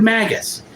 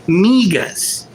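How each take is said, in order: First: "magas" said MAG-uhs, with an "a" as in "mag". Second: "migas" said MEE-guhs, with an "ee" vowel. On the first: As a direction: say "magas" with a flat "a". Contrasts MAGA with MIGA crowd. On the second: Contrasts MIGA with MAGA crowd. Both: Shown as a demonstration.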